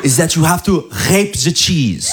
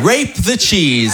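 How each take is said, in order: First: Imitating wife's French-accented English. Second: Rape the cheese said slowly, savoring the wrong word; slow repeat. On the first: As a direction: partner quoting her recipe, French-accented English. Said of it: "Elle m'a dit". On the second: Shown as a demonstration. Comic repeating wife's phrase, slow emphatic.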